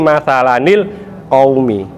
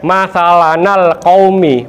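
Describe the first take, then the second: First: The n is followed by an i vowel. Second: The n is followed by an a vowel. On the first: The speaker calls it right. "dihidupkan dengan cara di kasro" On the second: The speaker calls it wrong. "bukan di fathah"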